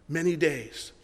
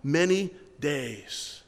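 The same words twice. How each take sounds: First: Said in the usual way. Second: "Many days" stretched slow, leaning on "many"; drawn-out emphasis. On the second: Shown as a demonstration. Pastor stressing to the congregation how long Nehemiah mourned, slow and drawn out. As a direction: draw out "Many days" slowly to make the length felt. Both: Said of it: "It says he did it for how long?".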